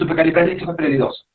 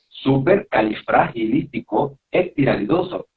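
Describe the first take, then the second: First: The phrase is said quickly, run together. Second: The phrase is said slowly, syllable by syllable. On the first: The listener may not catch the word. The speaker calls it wrong. "porque quizás no te van a entender" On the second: The listener can follow the word clearly. The speaker calls it right.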